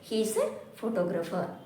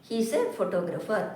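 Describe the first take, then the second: Both takes have the same delivery.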